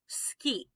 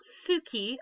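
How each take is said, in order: First: The u after the s is voiceless. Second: The u after the s is fully voiced. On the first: The speaker calls it right. "we've got a voiceless vowel there" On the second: The speaker calls it wrong. "This is not suki"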